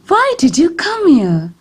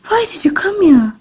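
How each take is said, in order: First: The voice sounds surprised and astonished. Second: The voice sounds frightened and fearful. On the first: "This shows a surprised tone of voice" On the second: "This shows a frightened tone of voice"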